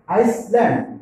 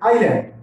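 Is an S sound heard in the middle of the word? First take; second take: yes; no. First: An S sound is pronounced in the middle. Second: No S sound is pronounced in the middle. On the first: The speaker calls it wrong. "not Iceland" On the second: The speaker calls it right. "Here S is silent"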